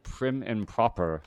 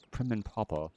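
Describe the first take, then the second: First: Said in the usual way. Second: Prim and proper British accent. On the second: Shown as a demonstration. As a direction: attempt a British accent, dropping the R. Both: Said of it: "Whenever you try to do an accent".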